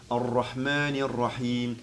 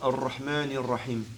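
First: The long vowel is held out. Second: The long vowel is not held out. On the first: The speaker calls it right. "il faut le prolonger" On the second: The speaker calls it wrong.

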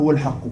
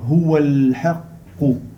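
First: The L sound is short, not held. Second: The L sound is held briefly. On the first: The speaker calls it wrong. "On ne dit pas huwa l'haqqo" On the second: The speaker calls it right. "Quand il y a le soukoun, on le retient"

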